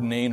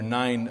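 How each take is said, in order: First: The vowel sounds like the one in "rain". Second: The vowel sounds like the one in "line". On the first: "I'm going to keep with the pronunciation of Nain" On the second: "it's actually more pronounced more like nine"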